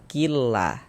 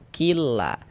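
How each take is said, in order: Both takes have the same delivery.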